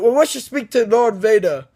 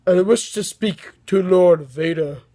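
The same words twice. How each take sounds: First: Said in the usual way. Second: Slow, lightly voiced sinister emperor; a half-hearted try at a menacing ruler; a hint of a slow dark lord, self-consciously imitated; attempted Emperor voice. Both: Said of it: "I can't do the Emperor voice".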